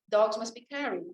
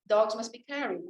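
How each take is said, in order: First: The main stress falls on carried. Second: The same.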